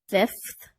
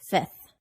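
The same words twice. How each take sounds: First: Every consonant in the final cluster is pronounced. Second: A consonant in the final cluster is dropped.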